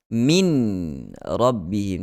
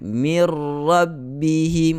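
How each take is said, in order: First: The n is clearly heard before the r. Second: The n merges fully into the following r. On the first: The speaker calls it wrong. "Tidak lagi kita kedengaran min rabbihim" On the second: The speaker calls it right. "masuk dalam ra terus"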